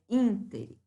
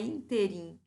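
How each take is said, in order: First: The stress is on the first syllable. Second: The stress is on the second syllable. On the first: The speaker calls it right. "a pronúncia é uma pronúncia de proparoxítona" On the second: The speaker calls it wrong. "não é interim"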